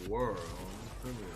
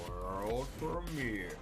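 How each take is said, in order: First: It is said in a low, sultry announcer voice. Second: The same.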